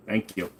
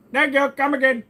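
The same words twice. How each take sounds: First: Said in the usual way. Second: Put-on much higher, louder shopkeeper accent; mock Indian accent. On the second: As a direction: thank the customer in a hammed-up Indian accent.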